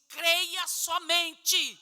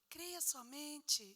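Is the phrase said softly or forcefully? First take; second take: forcefully; softly. First: It is said loudly and forcefully. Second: It is said softly and calmly. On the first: The speaker calls it right. "chacoalhou e disse" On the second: The speaker calls it wrong. "Jesus não falou assim"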